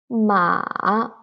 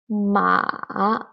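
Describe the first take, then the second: First: The pitch dips down and then rises. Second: The pitch dips down and then rises.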